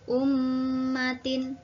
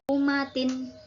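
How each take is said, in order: First: The m is doubled with a long nasal hum. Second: The m is short with no nasal hum. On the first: The speaker calls it right. "dibaca ummatin" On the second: The speaker calls it wrong. "tidak boleh dibaca umatin gitu"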